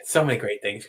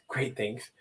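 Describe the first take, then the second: First: Said in the usual way. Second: "Great things" dropped much softer; soft repeat. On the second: Real, not acted. Host savoring the idea, softly repeating it. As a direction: echo "Great things" quietly, to yourself.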